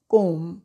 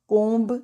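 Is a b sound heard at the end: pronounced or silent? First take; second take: silent; pronounced. First: No b sound is heard at the end. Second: A b sound is heard at the end. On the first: The speaker calls it right. "बी silent है" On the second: The speaker calls it wrong. "कोम्ब नहीं"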